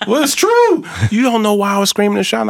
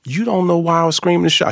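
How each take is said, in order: First: Very high, loud, fast mock voice; high, loud, fast quoted retort; imitating Ruthie. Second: High, lively imitation of Ruthie; imitating Ruthie. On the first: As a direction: rattle it off in her high voice. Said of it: "I said". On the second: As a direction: lightly voice the older lady. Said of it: "she's like".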